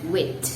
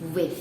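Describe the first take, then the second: First: The word ends with a t sound. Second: The word ends with a soft th sound. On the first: The speaker calls it wrong. "or wit" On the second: The speaker calls it right. "the correct pronunciation for the word W I T H"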